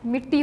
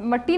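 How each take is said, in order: First: The first vowel sounds like 'i'. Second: The first vowel sounds like 'a'. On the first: The speaker calls it right. "मिट्टी होता है। मीम के नीचे ज़ेर होती है" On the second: The speaker calls it wrong. "लफ्ज़ मट्टी नहीं होता"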